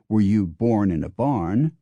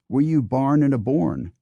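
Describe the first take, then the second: First: The vowels of born and barn sound normal. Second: The vowels of born and barn are swapped. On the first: "Dixie speakers don't say" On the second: "They say"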